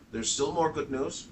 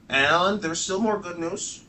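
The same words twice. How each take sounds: First: Said in the usual way. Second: "more" stretched slow and high; stress on more. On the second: Shown as a demonstration. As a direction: lean on "more", drawn out.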